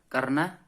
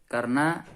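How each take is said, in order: The two takes are said the same way.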